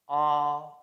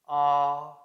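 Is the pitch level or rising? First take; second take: level; level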